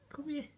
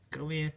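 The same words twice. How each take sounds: First: Squeaky high call to a puppy. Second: Said in the usual way. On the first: Real, not acted. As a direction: sing it up high and soft. Calling puppy.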